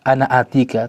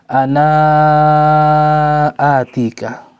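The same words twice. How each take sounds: First: The final vowel of 'ana' is short. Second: The final vowel of 'ana' is drawn out long. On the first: It follows the Hafs reading tradition. "kalau di riwayat Hafs an Asim ya tetap pendek" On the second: It follows the Warsh reading tradition. "dalam riwayat Warsh maka dibaca panjang"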